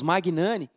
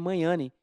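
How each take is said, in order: First: The g and n are pronounced as separate sounds. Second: The gn is pronounced as one 'ny' sound. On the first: The speaker calls it wrong. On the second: The speaker calls it right.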